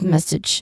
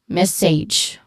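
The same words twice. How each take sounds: First: The second syllable sounds like itch, with short vowel. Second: The second syllable sounds like sage, with a diphthong. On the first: The speaker calls it right. "that's the proper way to say it" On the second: The speaker calls it wrong. "some people would say it as sage"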